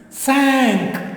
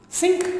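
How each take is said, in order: First: The word sounds like English 'sank'. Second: The word sounds like English 'sink'. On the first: The speaker calls it right. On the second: The speaker calls it wrong. "Shall we pronounce it as sink? No"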